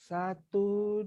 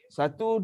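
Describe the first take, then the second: First: The counting is very slow and drawn out. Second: The counting is very fast and quick. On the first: This is the tahqiq recitation speed. "Slow kan?" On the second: This is the tadwir recitation speed. "Paling laju"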